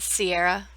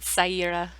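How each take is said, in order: First: The first syllable sounds like 'see'. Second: The first syllable sounds like 'sigh'. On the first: The speaker calls it wrong. "like the mountain type of Sierra" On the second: The speaker calls it right. "That's why it's shortened to Sai"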